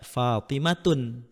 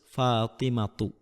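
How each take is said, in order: First: The word ends with an added n sound. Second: The word ends on a vowel without n. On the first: The speaker calls it wrong. "tidak boleh dibaca Fatimatun" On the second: The speaker calls it right. "tetapi harus Fatimatu"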